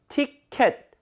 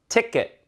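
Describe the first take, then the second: First: The second vowel is a full 'e' sound. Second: The second vowel is a weak, reduced sound. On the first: The speaker calls it wrong. "이게 평상시 우리가 하던 발음인데" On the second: The speaker calls it right. "그게 아니라 ticket"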